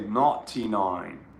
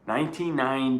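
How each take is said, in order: First: It is said in an imitated British accent. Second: It is said in a plain American accent. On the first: "as the people over at the pond say" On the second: "I know they pronounce it differently than we do"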